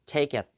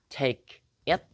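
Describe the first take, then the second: First: The two words run together as one. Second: The two words are said separately. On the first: The speaker calls it right. "tapi take it" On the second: The speaker calls it wrong. "bukan take it"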